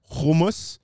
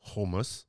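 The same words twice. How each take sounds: First: Hummus with an English U; hummus said the American way; plain. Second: Hummus with a throaty H, said HOO-mus; Hummus said quietly the Israeli way; Hebrew pronunciation. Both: Shown as a demonstration.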